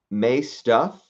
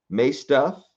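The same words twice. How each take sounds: The two takes are said the same way.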